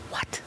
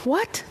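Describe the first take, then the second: First: Breathless whispered what; stunned whisper. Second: High rising what; disbelieving what. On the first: Retelling hearing the waitress confirm it, whispered. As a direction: whisper it in shock. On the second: Retelling hearing the waitress confirm it, high astonished. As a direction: jump up in pitch, amazed. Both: Retold or imitated. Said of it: "And I'm going".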